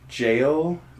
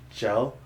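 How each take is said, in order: First: The vowel is a long 'ay' sound. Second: The vowel is a short 'eh' sound. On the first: This is the usual pronunciation. "instead of saying like jail" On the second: This is how many local people say it. "they say gel. I think it's a Utah thing"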